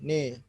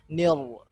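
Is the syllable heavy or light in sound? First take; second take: light; heavy. First: The syllable sounds thin and light. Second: The syllable sounds thick and heavy. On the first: The speaker calls it right. "ni, tapi ini" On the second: The speaker calls it wrong. "Ni tidak tidak tebal, jadi bukan nil"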